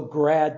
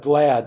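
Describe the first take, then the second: First: The 'l' sound is replaced by an 'r'. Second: The word is said with a clear 'l'. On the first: The speaker calls it wrong. "the Japanese who cannot pronounce the letter L" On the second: The speaker calls it right. "instead of glad"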